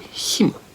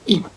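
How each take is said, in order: First: The h is pronounced at the start. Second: The h is dropped at the start. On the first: "ストロング、強い場合です" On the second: "弱い場合はこの最初のh がなくて"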